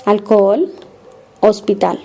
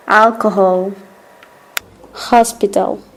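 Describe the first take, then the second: First: Alcohol said alcol, no h; hospital said ospital, h silent. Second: Alcohol with a breathy English h; hospital with the h sounded. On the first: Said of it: "it doesn't sound". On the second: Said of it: "Then in English it sounds". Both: Shown as a demonstration.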